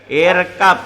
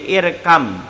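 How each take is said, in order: First: The word ends with a b sound. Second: The word ends with an m sound. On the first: This is how it is written. "tulisan dia" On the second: This is how it is read aloud. "bacanya menjadi irkam"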